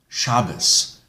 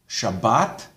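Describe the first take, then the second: First: It ends in an S, stress on the first syllable. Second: It ends in a T, stress on the last syllable.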